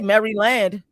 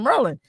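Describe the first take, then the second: First: The name is said fully in three syllables. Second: The name is squeezed into two syllables, Mer-lin. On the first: This is how outsiders say it. The speaker calls it wrong. "I don't say Maryland" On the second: This is how locals say it. The speaker calls it right. "the way I say Merlin"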